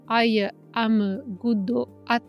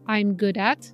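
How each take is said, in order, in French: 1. C'est prononcé avec des voyelles supplémentaires à la japonaise. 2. C'est prononcé avec des sons anglais naturels. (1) "en katakana English, ça fait" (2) "si on veut dire quelque chose comme"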